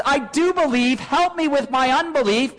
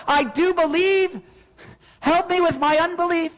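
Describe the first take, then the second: First: Said in the usual way. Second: A pleading cry to God, raised higher. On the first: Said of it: "when you cry out that phrase". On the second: Retold or imitated. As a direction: plead it out like a desperate prayer. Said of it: "It's why you cry out".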